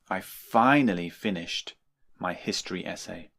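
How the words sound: The word 'finally' is strongly emphasized. "We often emphasize the word finally"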